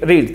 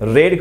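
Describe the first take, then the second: First: The vowel is long, like 'reed'. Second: The vowel is short, like 'red'. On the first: This is the base form of the verb. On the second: This is the past form of the verb.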